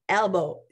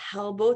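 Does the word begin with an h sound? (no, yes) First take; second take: no; yes. First: The word starts directly on the vowel, no breath. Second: The word starts with a breathy h sound. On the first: The speaker calls it right. "C'est elbow" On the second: The speaker calls it wrong. "c'est pas elbow"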